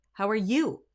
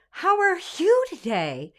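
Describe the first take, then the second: First: Said in the usual way. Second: "you" sung breathy as "woo", high and slow; mock the airy W onset; wrong way. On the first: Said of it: "We say". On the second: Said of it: "we don't go".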